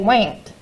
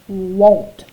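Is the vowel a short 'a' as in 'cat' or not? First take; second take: short a; not short. First: The vowel is a short 'a' sound. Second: The vowel is not a short 'a' sound. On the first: This is how the word would sound if it followed the rule. The speaker calls it wrong. "It should have a short vowel sound, ah" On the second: This is how the word is really said. The speaker calls it right. "it says won't"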